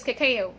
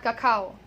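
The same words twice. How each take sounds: First: Cacao in three beats, stressed KAY; correct pronunciation. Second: Cacao in two beats, ending like cow; wrong pronunciation. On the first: Teacher giving learners the right word, correct pronunciation. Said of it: "it is cacao". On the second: Teacher showing the mistake to avoid, wrong pronunciation. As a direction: say cacao as kuh-KOW. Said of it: "Okay, it's not cacao". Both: Shown as a demonstration.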